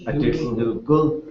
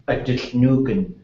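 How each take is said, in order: First: The last word is said with an L sound. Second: The last word is said with an N sound. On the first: "But she would say" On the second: "all those underlying ends would be just an N"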